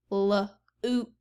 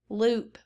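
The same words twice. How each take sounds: First: "L-oop" split into l and a long oop; segmented sounds. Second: Said in the usual way. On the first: Shown as a demonstration. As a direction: pull the word apart as L-oop. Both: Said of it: "let's look at loop".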